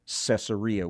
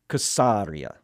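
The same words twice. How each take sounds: First: The word begins with a soft S sound. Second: The word begins with a hard K sound.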